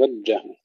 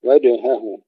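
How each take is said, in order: First: وجهه with unbounced jeem run into ha; swallowed jeem. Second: وجهه with echoed j, then clear h; bounced jeem. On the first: Teacher mimics some students, وجهه without qalqala. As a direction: smudge jeem and h together in وجهه. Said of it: "بعض الأخوة يقولون". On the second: Teacher corrects it, qalqala in وجهه. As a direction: pop the jeem, sound the ha in وجهه. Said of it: "نقلقل الجيم ونظهر الهاء". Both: Shown as a demonstration.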